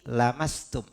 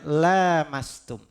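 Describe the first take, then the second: First: The first vowel is kept short. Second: The first vowel is held long. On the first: Merely touching. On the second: Touching each other, understood as intercourse.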